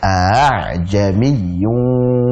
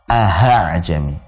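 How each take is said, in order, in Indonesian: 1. Hamzah kedua dilunakkan di antara hentian glotis dan vokal. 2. Hamzah kedua diucapkan sebagai bunyi h. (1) "A' seperti diseret saja" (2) "dibaca dengan huruf ha ... Jadi salah"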